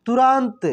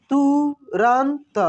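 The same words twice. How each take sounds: First: Said in the usual way. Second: तुरंत stretched slowly, syllables apart; slow syllable reading. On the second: Shown as a demonstration. (तुरंत को धीरे-धीरे बोलो)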